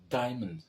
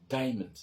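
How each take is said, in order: Both takes have the same delivery.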